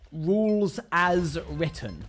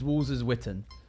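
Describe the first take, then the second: First: The R sounds are said clearly. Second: The R sounds are lisped toward W.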